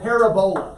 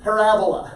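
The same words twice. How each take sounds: First: Said in the usual way. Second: Parabola with the second syllable, ra, hit hard; stress on the second syllable. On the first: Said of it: "It's spelled parabola". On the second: Shown as a demonstration. Teacher drilling the class on the word, stress on ra in Parabola. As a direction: land the weight on ra in Parabola, like Ebola. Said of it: "Emphasis on the second syllable".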